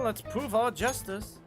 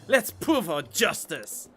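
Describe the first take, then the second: First: It is said flatly, without enthusiasm. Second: It is said with lively enthusiasm.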